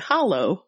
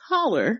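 First: It is said the Michigan way, ending in -oh. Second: It is said the Southern way, ending in -er.

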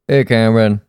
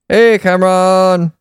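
First: It is said with deliberately low energy. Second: It is said with normal, higher energy.

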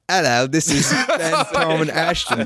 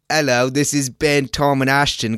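First: It is spoken in an Australian accent. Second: It is spoken in the normal, unaccented voice.

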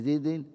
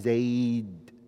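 First: The word ends with an added -in. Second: The word ends on d with no vowel. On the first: The speaker calls it wrong. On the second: The speaker calls it right.

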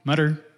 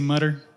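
First: It is said in an American accent. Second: It is said in an American accent.

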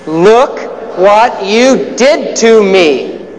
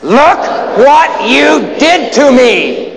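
First: It is said plainly, without much passion. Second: It is said with strong passion and energy.

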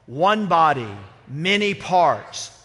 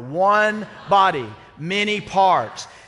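First: It is said loudly, with some volume. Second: It is said even louder than before.

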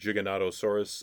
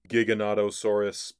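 First: The first syllable sounds like the word jig. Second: The first syllable starts with a hard g sound. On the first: The speaker calls it wrong. "I end up pronouncing it Giganotosaurus" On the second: The speaker calls it right. "It's actually Giganotosaurus"

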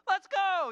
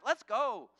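First: It sounds happy and celebrating. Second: It sounds angry and impatient. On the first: We scored and are celebrating. "Now it's a happy let's go" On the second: Stop being lazy and do it right. "it's not like an angry let's go"

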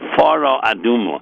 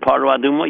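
First: The first word begins with an f sound. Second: The first word begins with a p sound. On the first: The speaker calls it right. "It's fara, like F-A-R-A" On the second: The speaker calls it wrong. "you do not pronounce it paraduma"

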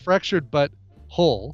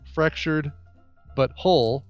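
First: There is no pause after 'Fractured'. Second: There is a pause after 'Fractured'. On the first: The speaker calls it right. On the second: The speaker calls it wrong.

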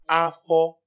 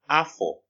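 First: The tone stays high on both syllables. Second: The tone goes high then low. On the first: It means stomach. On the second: It means year. "It has a high tone and a low tone"

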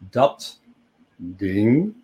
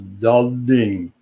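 First: A voiceless t is followed by a voiced d. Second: Both consonants at the word boundary are voiced. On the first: "Dat ding becomes"

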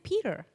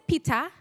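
First: The name is said without a Kenyan accent. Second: The name is said with a Kenyan accent. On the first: This is how it is said in the new country. The speaker calls it right. "I say Peter. I've learned how to say it right" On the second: This is how it was said back home. The speaker calls it wrong. "the way I say it when I grew up in Kenya"

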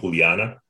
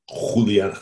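First: The name is said with a Spanish accent. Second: The name is said with a guttural Dutch sound. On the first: "You put like a Spanish accent on names" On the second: "Like in the back of the throat type of sound"

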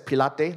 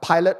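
First: The name is said like 'Pilates'. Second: The name is not said like 'Pilates'. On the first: "I like to pronounce it as Pilate, like, you know, Pilates" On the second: "some of you pronounce it as Pilate"

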